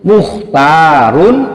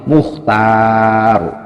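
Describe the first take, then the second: First: The final -un ending is fully pronounced. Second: The word stops short without the -un ending. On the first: The reading continues without stopping. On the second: The reader stops at this word.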